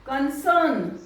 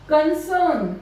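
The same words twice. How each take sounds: The two takes are said the same way.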